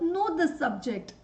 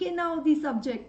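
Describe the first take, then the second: First: No k sound is pronounced at the start. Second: A k sound is pronounced before 'now'. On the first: The speaker calls it right. "So know the subject" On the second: The speaker calls it wrong. "I'm just saying K now the subject"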